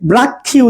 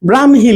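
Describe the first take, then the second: First: The middle cluster is pronounced as 'ksh'. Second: The middle cluster is pronounced as 'hm'. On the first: The speaker calls it wrong. "এটাকে অনেকে ব্রাক্ষী উচ্চারণ করেন" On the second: The speaker calls it right. "কিন্তু এটা হবে ব্রাহ্মী"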